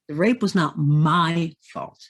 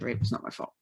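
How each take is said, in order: First: It sounds believing, with emphasis on words. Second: It sounds hesitant and unconvinced.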